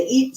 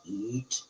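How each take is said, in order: First: Said in the usual way. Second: Very low, hushed imitation of EAT; scary spirit voice. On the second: Shown as a demonstration. Demonstrating exactly how the recording sounded, in a scary low voice. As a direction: drop deep and very soft, like a ghost on tape. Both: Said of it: "sounded just like that".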